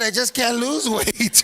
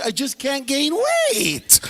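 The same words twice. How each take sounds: First: Parodied complaint. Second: High, slow, stretched-out complaint; mock whining. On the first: Acted. Parodies the skinny dudes' complaint. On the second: Imitating skinny dudes who can't gain weight, mock whining. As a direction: drag out the last word in a hammed-up whine.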